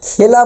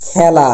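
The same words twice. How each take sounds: First: খেলা with a plain close e, "khela"; wrong pronunciation. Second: খেলা with open æ, "khæla"; correct pronunciation. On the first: Teacher shows students the form not to say, খেলা with a close e. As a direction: say খেলা as spelt, with e as in "they". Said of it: "এটা খেলা বলতে পারবো না". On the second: Teacher shows students how it must be pronounced, খেলা with open æ. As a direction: say খেলা with the vowel of "cat". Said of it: "এটার উচ্চারণ করতে হবে আমাদের". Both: Shown as a demonstration.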